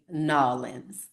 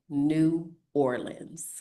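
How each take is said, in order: First: The name is squeezed into one short word. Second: The name is said as two separate words. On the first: This is how tourists say it. The speaker calls it wrong. "Only tourists say Nolans" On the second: This is how locals say it. The speaker calls it right. "We say New Orleans"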